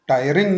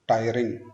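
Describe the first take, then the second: First: The stress is on the second syllable. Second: The stress is on the first syllable. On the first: The speaker calls it wrong. "Second syllable पे stress चला जाएगा" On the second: The speaker calls it right. "First syllable पे stress करना है"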